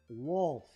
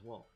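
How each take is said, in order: First: Pronounced with the L clearly sounded. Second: Midwest pronunciation, the L barely heard.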